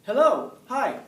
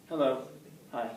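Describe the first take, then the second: First: Much higher, louder, sing-song hello; cheery greeting. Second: Said in the usual way. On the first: Shown as a demonstration. Teacher demos a greeting for the class, bright and eager. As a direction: greet them like you're thrilled to see them. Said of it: "Now, how do I say it?". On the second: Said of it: "Now, how did I say it?".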